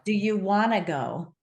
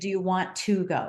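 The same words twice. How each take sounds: First: Want to is squeezed together into wanna. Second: Want to is said in full, each word clear. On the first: "very lazy language" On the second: "Instead of"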